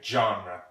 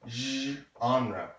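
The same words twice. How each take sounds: First: The word begins with a harder sound. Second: The word begins with a soft zh sound. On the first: "Some people say genre, which might be easier for you" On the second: "It's pronounced zh"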